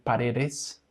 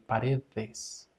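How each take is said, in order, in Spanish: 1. La d del medio es dura. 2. La d del medio es un sonido suave, como la th. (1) "instead of saying paredes" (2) "remember this is a th sound, you can say paredes"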